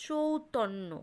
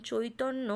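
First: চৌতন্য with a drawn "chou" at the start; diphthong variant. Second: চৈতন্য with a gliding "choi" at the start; diphthong oi. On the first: Teacher illustrating the compound vowel, gliding "chou". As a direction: glide from o to u in চৌতন্য. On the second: Teacher illustrating the compound vowel, gliding "choi". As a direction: glide from o to i in চৈতন্য. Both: Shown as a demonstration. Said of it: "সন্ধিক্ষণ বা যৌগিক স্বর".

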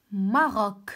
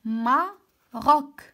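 First: Said in the usual way. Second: "ماروك" very slow and loud, split as ma, rok; broken into syllables. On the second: Shown as a demonstration. Teacher asking which sound is heard, "ماروك" syllable by syllable. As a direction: sound out "ماروك" in two raised, separated beats. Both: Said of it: "دونك شنو كنطق؟".

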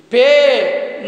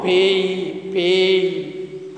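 First: "Pay" on a long, pure e, loud; wrong vowel demo. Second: "Pay" gliding from e into i, lower; correct diphthong. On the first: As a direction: push out "Pay" with no glide in the vowel. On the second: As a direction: model "Pay" as peh-ee, pitch dropped. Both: Shown as a demonstration.

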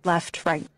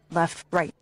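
The two takes are said the same way.

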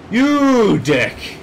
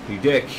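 First: Higher, louder silly insult; silly put-on voice. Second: Said in the usual way. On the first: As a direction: fling it in a daft voice. Repeats insult in odd voice.

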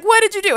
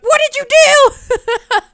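First: High, loud and fast accusation; quick accusing yell. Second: Slow, high, loud yell breaking into laughter; hammed-up yell. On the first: Pretend. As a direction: fire the question off sharply. Voicing Arthur's accusing question. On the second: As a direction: stretch it out and crack up. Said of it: "we gotta have him argue".

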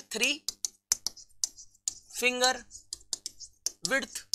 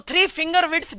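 First: three, finger, width softly, with long pauses between; word-by-word dictation. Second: Said in the usual way. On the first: Shown as a demonstration. Teacher dictating the gap rule to students, halting word-by-word dictation. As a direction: set three, finger and width apart, quietly, as if writing each.

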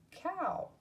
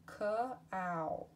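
First: Cow lifted much higher; high repeat. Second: Said in the usual way. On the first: Shown as a demonstration. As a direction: toss cow up high and playful. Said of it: "second take of word". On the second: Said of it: "word said twice".

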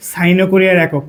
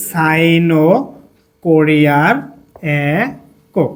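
First: Said in the usual way. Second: Drawn-out words with long pauses; slow dictation. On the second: Shown as a demonstration. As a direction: dictate word by word, slightly low. Dictating while writing on board.

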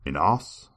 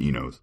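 First: "Enos?" said as IH-noss with a questioning rise; "Enos?" tried with a short i and an o like in "toss"; trying another pronunciation. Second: "Enos" said EE-nohz with a long e and long o; "Enos" as EE-nohz, settled and matter-of-fact; chosen pronunciation. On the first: YouTuber testing a name aloud, tentative. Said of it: "how else could you pronounce E N O S". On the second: YouTuber settling on how to say the name, plain. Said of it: "I'm saying Enos". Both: Shown as a demonstration.

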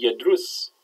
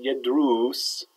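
First: "yadrus" with a brief u in the last syllable; "yadrus" ending on a quick short dhamma vowel. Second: "yadrus" with a drawn-out oo in the last syllable; "yadrus" mispronounced with a long oo; long vowel. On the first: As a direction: keep the u of "yadrus" short, yad-rus. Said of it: "with a short". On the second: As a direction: stretch the u of "yadrus" into yad-roos. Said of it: "with a long vowel there". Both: Shown as a demonstration.

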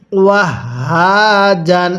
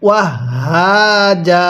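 First: "জান" ends in a sounded n; drawn-out "হা", then nasal ending "jan"; continuing form. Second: "জা" ends on long open aa, no n; pausal form. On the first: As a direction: recite "ওয়াহ হা জান" slowly, closing on n. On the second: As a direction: recite "ওয়াহ হা জা" slowly, dropping the final n. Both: Shown as a demonstration. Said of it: "ওয়াকফ করলে কিভাবে পড়ব".

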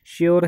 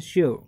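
First: "श्योर" with the R pronounced, "shyor"; sounded final R. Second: "श्योर" ending on the vowel, "sho-uh"; silent final R. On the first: Teacher repeats the word to correct students, sounded R. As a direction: put the R on the end of "श्योर". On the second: Teacher gives students an example word, silent R. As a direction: leave the R off "श्योर". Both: Shown as a demonstration. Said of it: "रै pronounce नहीं करेंगे".

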